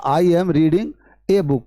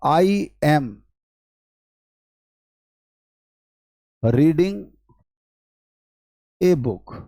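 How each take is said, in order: First: Slow, drawn-out teacher's read of "I am reading a book"; slow demo. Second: Dictating word by word with long gaps. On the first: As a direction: read "I am reading a book" very slowly as one phrase, leaning on "a". (धीमे, खींचकर पूरा वाक्य) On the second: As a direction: spell the sentence out, pausing after "I am" and "reading". (हर शब्द के बाद लंबा ठहराव) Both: Shown as a demonstration. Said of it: "मैंने कहा".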